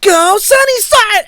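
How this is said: It is shouted like an excited cheerleader.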